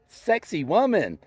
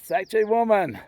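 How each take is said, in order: First: The name is said like English 'sexy woman'. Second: The name is said with its native Quechua sounds.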